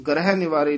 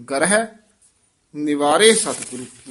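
First: ਗ੍ਰਹਿ run straight into ਨਿਵਾਰੇ with no break; ਗ੍ਰਹਿ said fast and clipped into ਨਿਵਾਰੇ, no yamak; wrong reading. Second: ਗ੍ਰਹਿ split as ga-ra-hi with a rise, then a pause before ਨਿਵਾਰੇ; ਗ੍ਰਹਿ sounded out syllable by syllable, then a pause; correct yamak. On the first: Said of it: "ਨਹੀਂ ਕਹਿਣਾ". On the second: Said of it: "ਗ੍ਰਹਿ ਪਦ ਤੇ ਯਮਕ ਲਾਉਣੀ ਹੈ". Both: Shown as a demonstration.

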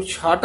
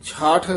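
First: ਛਾਟ ending in a plain hard t; hard t misreading. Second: ਛਾਠ ending in an aspirated th; soft ending. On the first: Teacher showing what not to say, ਛਾਟ with hard t. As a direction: close ਛਾਟ on t with no puff. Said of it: "ਇਹਨੂੰ ਛਾਟ ਨਹੀਂ ਕਹਿਣਾ ਹੈ". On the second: Teacher correcting a pupil, ਛਾਠ softly aspirated at the end. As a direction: let breath out on the end of ਛਾਠ. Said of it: "ਛਾਠ ਪੋਲਾ ਹੀ ਬੋਲਣਾ ਹੈ". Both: Shown as a demonstration.

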